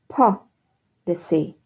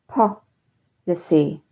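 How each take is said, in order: The two takes are said the same way.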